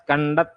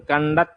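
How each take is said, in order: Both takes have the same delivery.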